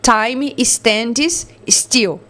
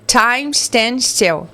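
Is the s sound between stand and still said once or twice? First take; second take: twice; once. First: The s sound is pronounced twice, separately. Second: The s sound is pronounced once, linked. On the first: The speaker calls it wrong. "a gente não vai falar" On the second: The speaker calls it right. "A gente vai falar"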